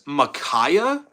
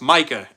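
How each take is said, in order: First: The name is said with three syllables. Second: The name is said with two syllables. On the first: The speaker calls it wrong. "A whole extra syllable" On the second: The speaker calls it right. "it's Micah"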